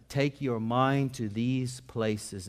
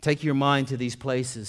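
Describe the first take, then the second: First: Drawn out at half speed; measured, unhurried emphasis on every word; slow, deliberate repeat. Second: Said in the usual way. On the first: Real, not acted. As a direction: let each word of the line sink in. Quotation repeated slowly for emphasis.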